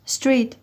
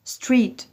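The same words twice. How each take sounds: The two takes are said the same way.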